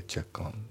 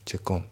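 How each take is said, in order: First: "チェックオン" linked as "che-kon"; "チェックオン" flowing together without a break; linking. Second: "チェックオン" as two katakana words, "chekku on"; "チェックオン" without linking; unlinked. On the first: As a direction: join "チェック" and "オン" into one English-style word. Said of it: "リンキングでチェックオンだね". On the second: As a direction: say "チェックオン" with "チェック" and "オン" kept apart. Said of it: "チェックオンじゃなくて". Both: Shown as a demonstration.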